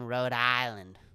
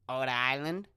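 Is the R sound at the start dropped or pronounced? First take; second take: pronounced; dropped. First: The initial R sound is clearly pronounced. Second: The initial R sound is dropped entirely.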